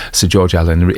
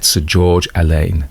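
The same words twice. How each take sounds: First: Allen said as "AL-en", like the plain name Allen; corrected pronunciation. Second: Alleyne said as "al-AIN", slowly, stressed second syllable; mispronounced name. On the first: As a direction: Allen rhymes with "gallon", stress on the first syllable. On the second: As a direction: say Alleyne wrongly as "a-LAINE", drawn out. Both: Real, not acted. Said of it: "get it right, Tone".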